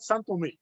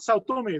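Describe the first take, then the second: First: The first word ends in an 'n' sound. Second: The first word ends in an 'ow' vowel sound. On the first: This is how locals say the name. The speaker calls it right. "That's how they pronounce it there" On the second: This is how outsiders say the name. The speaker calls it wrong. "it's not Sao Tome"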